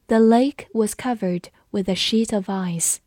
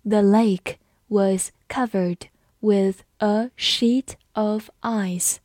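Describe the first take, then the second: First: Said in the usual way. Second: Word by word, with clear gaps; slow read-along. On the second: Shown as a demonstration. Teacher leading students through the lake sentence, slow read-along. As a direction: read it slowly for learners to follow. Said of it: "跟着我慢读一遍".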